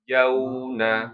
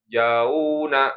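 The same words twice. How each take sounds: First: The first syllable is kept short and soft. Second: The first syllable is drawn out long. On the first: The speaker calls it right. "lembut ya" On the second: The speaker calls it wrong. "jangan dibaca panjang"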